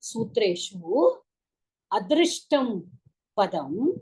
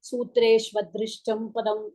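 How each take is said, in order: First: The first two words are said separately. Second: The first two words are fused into one. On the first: The speaker calls it right. "சந்தி பிரிச்சு படிக்கிறேன்" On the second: The speaker calls it wrong. "கொஞ்சம் ஒரு மாதிரி இருக்கும்"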